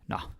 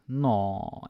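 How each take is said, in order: First: It is short and brisk, ready for action. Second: It sounds cooing, as at something cute.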